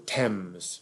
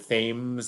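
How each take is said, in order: First: It is pronounced the way Londoners say it. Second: It is pronounced the way tourists say it. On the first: The speaker is from London. "Londoners inevitably pronounce that the Thames" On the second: The speaker is not from London. "tourists often come and say"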